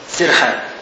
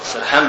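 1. المقطع الأول فيه الحركة 'i'. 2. المقطع الأول فيه الحركة 'a'. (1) "السرحان بكسر السين" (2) "سرحان بمعنى غافل"

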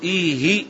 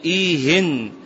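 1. تنتهي الكلمة بحركة قصيرة دون نون. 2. تنتهي الكلمة بصوت نون زائد. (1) "تفرق بين التنوين والكسر في إيه" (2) "تفرق بين التنوين والكسر في إيه"

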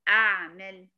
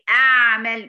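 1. تُنطق العين من وسط الحلق. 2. تُنطق العين بفتح الفكين. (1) "من الحلقة أهو" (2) "وتفتحي الفكين على الآخر فالصوت كله بقى بيخرج بواسع"

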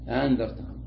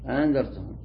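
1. الهمزة الثانية تصير ألفًا. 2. الهمزة الثانية مُسهَّلة، تُنطق نصف نطق. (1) "تنطق الأولى همزة والثانية ألف" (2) "بحركة خفيفة بين الهمزة وبين الألف"

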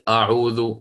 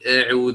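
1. الهمزة في البداية تُنطق ثقيلة وغليظة. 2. الحركة في أول الكلمة تميل نحو صوت "e". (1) "ليست أعوذ" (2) "تنحو إلى الإمالة فتقول أعوذ هكذا"

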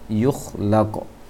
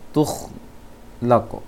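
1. Kata ini dimulai dengan bunyi 'y'. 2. Kata ini dimulai dengan bunyi 't'. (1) "pindah titiknya ke atas" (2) "yang terbaca tadi oleh [name]"

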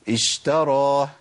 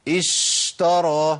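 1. يُنطق صوت sh بطول عادٍ. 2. يُمدّ صوت sh أكثر من اللازم. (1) "اقول ايه؟" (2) "ده كتير"

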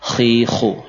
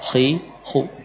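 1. Bunyi kh dipaksakan dan kasar, seperti mendengkur. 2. Bunyi kh ringan dan bersih, tanpa serak. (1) "terlalu menekan, ya, payah. Mungkin ada sisi takallufnya" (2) "Cukup dengan seperti ini"

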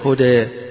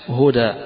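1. الصوت الأخير يقع بين 'a' و'e'. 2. الصوت الأخير هو 'a' مفتوح. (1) "بين" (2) "الفتح"

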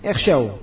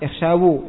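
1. Huruf w terakhir tidak memiliki vokal. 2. Huruf w terakhir diikuti vokal u. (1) "waw dan nyanya disukun" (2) "Bukan apa? Ikhshawu. Bukan"

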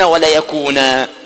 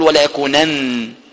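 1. تنتهي الكلمة بحرف مد طويل. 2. تنتهي الكلمة بصوت النون. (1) "والنون المشددة تثبت وقفا ووصلا، أما في النون المخففة تثبت وصلا وتحذف وقفا" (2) "ولا تقل"

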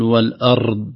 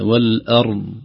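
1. صوت الراء مكرر أكثر من اللازم. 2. صوت الراء واضح لكنه قصير. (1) "فالتكرار الزائد" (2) "تظهر هكذا"

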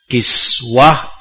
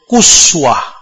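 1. Vokal pertama adalah bunyi i. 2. Vokal pertama adalah bunyi u. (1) "kiswah ini boleh dibaca kasrah" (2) "boleh dibaca dhammah"

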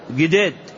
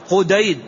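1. تُنطق باللهجة المحلية المتداولة. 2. تُنطق بالعربية الفصحى. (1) "وفي اللهجة المتداولة يقولون" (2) "هكذا بالعربية الفصحى"

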